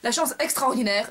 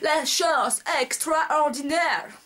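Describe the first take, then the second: First: It is said with a plain French accent. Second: It is said with an exaggerated English accent.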